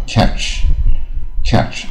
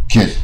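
First: "catch" with a light but clear final "ch"; careful "catch", ending lightly heard; audible light ending. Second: "catch" with the final "ch" nearly swallowed; cut-short "catch" with barely any "ch"; inaudible ending. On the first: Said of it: "听不出来也不好". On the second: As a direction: say "catch" so the ending can't be heard. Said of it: "听不出来". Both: Shown as a demonstration.

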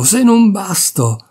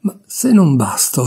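First: Higher, slow, exasperated repeat; exasperated outburst. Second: Bursting out. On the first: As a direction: drag it out, at the end of her rope. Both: Acted. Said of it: "Alla fine proruppe".

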